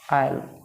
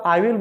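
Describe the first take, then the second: First: The words merge into one short syllable. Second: Both words are said in full, separately. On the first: "short बन जाएगा" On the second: "जो आप आई विल बोल रहे थे"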